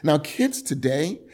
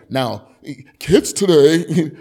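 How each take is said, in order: First: Said in the usual way. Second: A hint of a grumpy old man, slow and loud; lightly voiced old codger, drawn out. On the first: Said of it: "I sound like an old man". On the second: Shown as a demonstration. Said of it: "I don't know what an old man sounds like".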